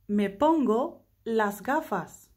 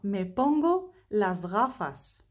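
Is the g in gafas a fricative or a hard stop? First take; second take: hard stop; fricative. First: The g in gafas is a hard stop. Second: The g in gafas is a soft fricative.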